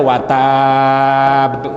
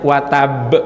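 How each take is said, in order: First: The final syllable is drawn out long. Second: The final syllable is short, not lengthened. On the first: The speaker calls it wrong. "Jangan dibaca watab ya" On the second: The speaker calls it right. "nggak ada huruf matnya"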